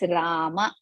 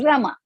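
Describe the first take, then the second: First: The first vowel is long. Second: The first vowel is short. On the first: The speaker calls it right. "We call it as Rama. ... Ra is Dirgha Swara and Ma is Rasva Swara" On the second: The speaker calls it wrong. "We don't call it as Rama"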